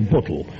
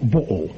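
First: The t and l sounds are clearly pronounced. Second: The t sounds and the l are dropped.

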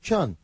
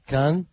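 First: The word begins with a ch sound. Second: The word begins with a k sound.

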